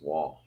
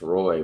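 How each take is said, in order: First: The name is said as 'Wah', without an R. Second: The name is said as 'Roy', with an R. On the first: This is how Canadians say it. "whenever you meet a Canadian, it's Wall" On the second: This is how it is learned growing up outside Canada. "you grow up learning it's Roy"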